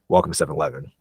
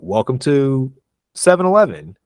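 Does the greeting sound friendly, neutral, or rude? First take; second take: rude; friendly. First: The greeting sounds cold and rude. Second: The greeting sounds warm and friendly. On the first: The speaker comes across as disrespectful to the customer. The speaker calls it wrong. "this dude's hella rude" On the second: The speaker is being polite to the customer. The speaker calls it right. "That sounds friendly"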